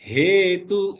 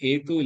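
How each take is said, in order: First: The word begins with an h from the throat. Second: The word begins directly with the vowel. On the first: The speaker calls it right. "ஹேது தொண்டையிலேருந்து வரணும்" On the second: The speaker calls it wrong. "ஏது இல்ல"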